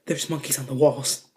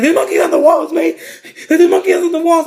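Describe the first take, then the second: First: Low, softer retold revelation; understated eerie statement; hushed ominous announcement. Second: High, loud frantic insistence; acted-out frantic alarm; retold panic. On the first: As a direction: say it low and quiet after a long pause. Retold friend's eerie announcement after silence. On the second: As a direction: shout it like a raving friend. Friend now panicking about monkeys.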